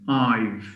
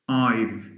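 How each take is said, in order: No difference in how they are said.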